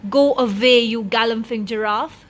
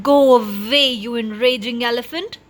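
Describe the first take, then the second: First: Shouting. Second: Loud angry scream, go away much louder. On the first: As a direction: bark go away at the giraffe. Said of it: "he shouted". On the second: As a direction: scream at the elephant to leave. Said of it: "he screamed". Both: A narrator's reading.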